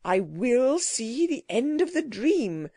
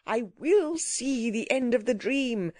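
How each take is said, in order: First: Slow, stubborn insistence; obstinate. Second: Mildly raised insistent voice; determined cry. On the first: Gentleman refuses the creature's warning, obstinately. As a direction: dig in, dragging out each word. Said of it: "learned gentleman obstinately". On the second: Gentleman refuses to leave the disaster, with a determined cry. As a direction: insist on it, crying out a little. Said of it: "cried the learned gentleman". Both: A narrator's reading.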